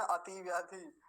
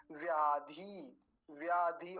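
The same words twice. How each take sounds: First: अति व्याधि with an extra a before ti; wrong split. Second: व्याधि said slowly, separated from ति; correct split. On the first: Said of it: "ऐसा नहीं करेंगे". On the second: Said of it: "ति को अलग करेंगे". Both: Shown as a demonstration.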